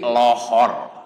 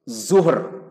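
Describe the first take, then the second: First: The word begins with an l sound. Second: The word begins with a z sound.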